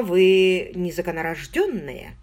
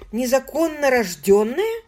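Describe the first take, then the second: First: Said in the usual way. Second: «незаконно рождённая» sung out higher and louder; musical. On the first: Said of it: "Hale states it". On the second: A narrator's reading. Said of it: "Оно прозвучало очень музыкально".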